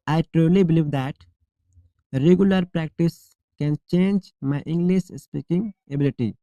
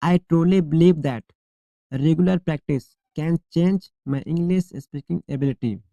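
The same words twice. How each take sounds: The two takes are said the same way.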